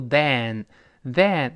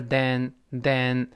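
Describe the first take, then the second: First: Slow then said like than, mouth wide; wrong then. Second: Slow then with a small mouth, short e; correct then. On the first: Teacher shows the wrong then, slow and wide. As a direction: drag out then with a wide open vowel. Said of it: "不要读then". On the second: Teacher models the right then, slow and small-mouthed. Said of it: "这里口型没有那么大". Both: Shown as a demonstration.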